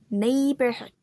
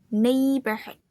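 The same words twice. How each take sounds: Both takes have the same delivery.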